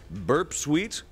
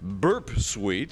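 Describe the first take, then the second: First: It is read in a plain speaking voice. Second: It is read in a booming announcer voice.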